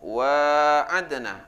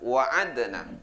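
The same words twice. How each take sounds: First: The vowel after the w is drawn out long. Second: The vowel after the w is kept short. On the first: "dengan alif ... baca panjang" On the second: "tanpa alif ... baca pendek"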